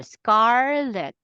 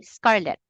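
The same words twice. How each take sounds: First: "scarlet" slow, with SCAR held long; stretched first syllable. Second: "scarlet" said quickly with neither syllable stretched; unstretched syllables. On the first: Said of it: "you stretch the first syllable". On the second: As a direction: keep both syllables of "scarlet" short. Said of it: "for most Chinese". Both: Shown as a demonstration.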